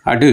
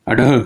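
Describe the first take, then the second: First: अड said short with the tongue flicked; flap demo. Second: अडह with the tongue thrown down and a breath after; thrown flap demo. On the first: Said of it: "अब इसको बोलेंगे कैसे". (अड छोटा और फेंका हुआ) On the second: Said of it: "फेंका हुआ". (अडह फेंककर साँस के साथ) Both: Shown as a demonstration.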